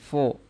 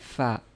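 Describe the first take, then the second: First: The syllable is heavy and dark, like fo. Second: The syllable is light and thin, like fa. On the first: The speaker calls it wrong. "jangan fo" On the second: The speaker calls it right. "Tapi fa"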